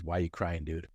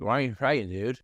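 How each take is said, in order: First: Said in the usual way. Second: Slurred speech. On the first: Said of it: "I re-, realized the question he was asking". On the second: Retold or imitated. Prisoner repeats his question to the puzzled patient, slurred. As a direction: run the words together, imitating impaired speech. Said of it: "in his slurred speech".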